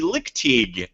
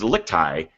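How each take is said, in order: First: The name ends with a sounded g. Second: The name ends with a silent g. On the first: The speaker calls it wrong. "That is wrong. I have been mispronouncing her last name" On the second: The speaker calls it right. "The G is silent"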